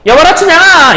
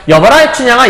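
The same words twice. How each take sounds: First: Higher, louder, yelling the name across the yard; wrong shouted call. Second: Said in the usual way. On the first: Shown as a demonstration. Teacher demonstrating the wrong way to call Chunhyang, loud shout. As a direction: bellow 춘향아 like a shout across a field. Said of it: "이렇게 얘기하면 좀 이상하잖아요". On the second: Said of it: "방자가 하는 얘기라고 볼 수 있겠죠".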